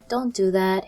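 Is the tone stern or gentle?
gentle. It is said in a gentle, kind tone.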